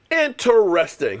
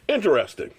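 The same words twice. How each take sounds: First: "Interesting" drawn out syllable by syllable; slow, skeptical "Interesting"; mock pondering. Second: Said in the usual way. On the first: Real, not acted. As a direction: stretch "Interesting" slowly with sarcasm. Mock pondering, drawn-out second take.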